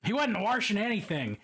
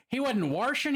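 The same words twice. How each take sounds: First: Baltimore accent, warshing with an r; mock Baltimore accent, washing said warshing. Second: Baltimore accent, washing as warshing, a bit louder. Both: Shown as a demonstration. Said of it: "That is not a particularly Balmer accent".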